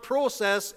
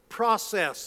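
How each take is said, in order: First: The first vowel sounds like 'oh'. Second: The first vowel sounds like 'ah'. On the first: The speaker calls it wrong. "It's not process" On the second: The speaker calls it right. "it's process"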